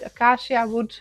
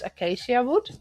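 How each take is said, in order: First: It is said with a Dutch pronunciation. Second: It is said with an English pronunciation. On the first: "That's more in a in a Dutch way" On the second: "I hope I pronounced that right"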